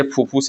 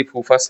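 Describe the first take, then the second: First: "फूफुस" में आख़िरी स्वर उ; "फूफुस" के अंत में "फुस" बोलें; फूफुस उच्चारण. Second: "फूफस" में आख़िरी स्वर अ; "फूफस" के अंत में "फस" बोलें; फूफस उच्चारण. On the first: ("फूफुस", आख़िर में छोटा उ) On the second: ("फूफस", आख़िर में उ की जगह अ) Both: Shown as a demonstration. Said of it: "फूफस बोल रहे हैं तो फूफुस".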